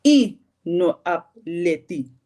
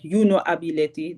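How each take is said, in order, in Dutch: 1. Losse woorden, beginnend met de korte 'i'. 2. Drie losse woorden, beginnend met volledige 'you'. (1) "als je you afkort" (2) "In plaats van dat je zegt"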